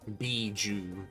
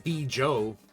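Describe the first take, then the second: First: The name ends with an 'oo' sound. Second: The name ends with an 'oh' sound. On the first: The speaker calls it right. "I think that's how it's pronounced" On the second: The speaker calls it wrong. "I don't think it's"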